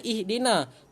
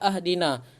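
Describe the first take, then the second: First: The word begins with an i vowel. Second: The word begins with an a vowel. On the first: The speaker calls it right. "Kenapa kita baca ihdina?" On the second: The speaker calls it wrong. "Tidak dibaca ahdina"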